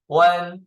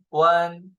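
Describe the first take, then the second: No difference in how they are said.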